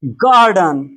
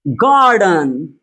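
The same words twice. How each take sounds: First: गार्डन said at a brisker pace, falling; model word repeated. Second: गार्डन drawn out very slowly, long gaa; slow model word. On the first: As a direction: say गार्डन again, quicker. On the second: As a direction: stretch गार्डन as a pronunciation model. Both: Shown as a demonstration. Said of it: "आ की मात्रा के साथ पढ़ा जा रहा है".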